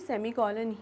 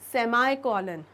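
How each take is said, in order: First: The second syllable has an 'ee' vowel. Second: The second syllable has an 'eye' vowel. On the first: "लेकिन हम सेमीकॉलन ही बोलेंगे" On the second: "कई जगह आप बिल्कुल इसका प्रोनाउंसिएशन सुनेंगे या देखेंगे"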